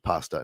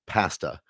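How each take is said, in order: First: The word has a non-Canadian pronunciation. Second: The word has a Canadian pronunciation. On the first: "instead of pasta" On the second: "in Canada where we say pasta"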